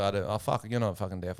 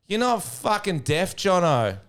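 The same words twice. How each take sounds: First: Low, softer aside; retold rude remark. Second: High, drawn-out heckle; woman calling out. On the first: Comic doubts an audience member, low retold remark. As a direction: say it lightly, under the voice. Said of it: "I said something quite rude". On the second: Retold or imitated. Woman heckles from rows behind, high drawn-out call. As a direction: call it slowly across a crowd. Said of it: "I hear a voice".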